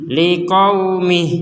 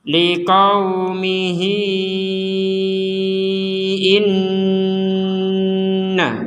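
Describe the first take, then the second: First: The word stops short without the final long vowel. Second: The final vowel is lengthened, flowing into the next word. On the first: The reader pauses here. "kalau kita berhenti di sini, harokat benderanya nggak berlaku" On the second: The reader joins it to the next word. "Ketika kita menggabungkan dengan hamzah, maka akan terjadi yang namanya panjang"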